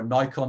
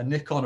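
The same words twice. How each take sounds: First: "Nikon" with a long i, like NIGH-kon; long-i pronunciation. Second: "Nikon" with a short i, like NICK-on; short-i pronunciation. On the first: Speaker offers the alternative camera brand pronunciation, long-i pronunciation. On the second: Speaker offers two ways to pronounce a camera brand, short-i pronunciation. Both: Shown as a demonstration. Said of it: "depending how you wanna pronounce it".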